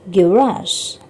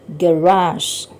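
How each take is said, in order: The two takes are said the same way.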